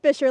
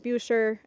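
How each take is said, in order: First: It rhymes with the word 'fisher'. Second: Its first vowel differs from the one in 'fisher'. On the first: The speaker calls it right. "but it's pronounced Bisher, like Fisher with a B" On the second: The speaker calls it wrong. "It looks like it's pronounced Busher"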